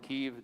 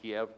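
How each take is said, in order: First: The name has the Ukrainian pronunciation. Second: The name has the Russian pronunciation. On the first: The speaker calls it right. "Please pronounce it Kiev" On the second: The speaker calls it wrong. "Don't pronounce it Kiev. That's the way the Russians pronounce it"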